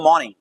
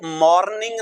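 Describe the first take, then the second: First: The r sound is softened, almost silent. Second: The r sound is said clearly and fully. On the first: The speaker calls it right. "The right pronunciation मॉर्निंग" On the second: The speaker calls it wrong. "मॉर्निंग नहीं"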